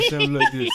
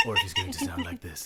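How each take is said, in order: First: A deep Joe voice; a deep voice for his puberty joke; low voice demo. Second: A voice breaking high on a puberty joke; squeaky voice crack. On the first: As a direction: show the low version. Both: Shown as a demonstration.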